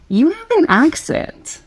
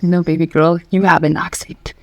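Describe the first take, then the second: First: Higher, drawn-out imitation of an American girl; American girl imitated. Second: Lower-pitched retort in one's head; retorting inner thought. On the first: American girl remarking to the speaker on an accent, imitated high and slow. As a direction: mimic her, slow and pitched up. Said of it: "talking to an American girl in Korea". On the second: Retold or imitated. Silent reply to the American girl's remark, low retort. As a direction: correct her, pitched down. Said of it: "And I thought".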